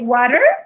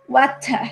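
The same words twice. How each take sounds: First: The T is a soft flap, like R. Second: The T is pronounced as a clear T. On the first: "in America we will say water" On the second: "In in England we will say water, water. They make the sound of the T"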